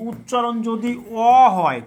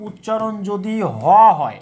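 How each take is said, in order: First: অ as a drawn-out "aw" with no h; teacher sounding out অ as "aw"; H silent. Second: Teacher sounding out হ as "haw"; H sounded. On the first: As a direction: stress অ as a pure open vowel. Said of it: "এইচের উচ্চারণ". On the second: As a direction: stress হ with an audible h. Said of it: "এইচের উচ্চারণ যদি". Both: Shown as a demonstration.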